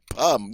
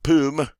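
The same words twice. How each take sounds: First: "pomme" said as the corrected French word; corrected French pronunciation. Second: The slip version of "pomme", not the corrected one; wrong French pronunciation. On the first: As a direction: say "pomme" properly, fixing the slip. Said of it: "That's better". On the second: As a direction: say "pomme" mispronounced, as a mistake to reject. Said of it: "Oop, not pomme". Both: Shown as a demonstration.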